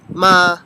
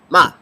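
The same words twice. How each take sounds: First: The pitch stays flat and level. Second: The syllable is short and clipped. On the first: "First tone is flat" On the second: "the fourth tone is short"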